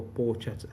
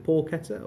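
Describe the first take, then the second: First: "porchetta" said with a ch sound, por-CHET-a; soft ch pronunciation. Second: "porchetta" said with a hard k, por-KET-a; hard k pronunciation. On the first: Unsure guest offers the other option, ch-sound "porchetta". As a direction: say "porchetta" with ch as in chat. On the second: Unsure guest asks how to say it, hard-k "porchetta". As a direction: say "porchetta" with a k sound in the middle. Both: Shown as a demonstration. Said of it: "I never know how to say".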